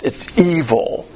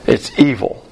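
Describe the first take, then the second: First: "evil" drawn out slowly and heavily; slow emphatic. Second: "It's" punched, "evil" falling, a bit louder; louder restatement. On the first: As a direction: let "It's evil" sink in slowly. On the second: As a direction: hammer "It's evil" with a firm fall. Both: Shown as a demonstration.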